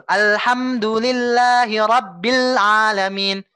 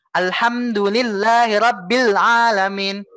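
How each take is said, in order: First: Slow, fully drawn-out Quran recitation; perfect tajwid recitation. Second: Slow, flowing Quran chant; flowing recitation. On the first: Teacher shows the student the perfect recitation, slow and drawn out. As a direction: chant each sound to its full length. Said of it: "ini yang sempurna gitu". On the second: Teacher shows the flowing but less exact reading, slow. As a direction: recite smoothly, slightly less careful. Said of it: "itu juga sudah mengalir". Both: Shown as a demonstration.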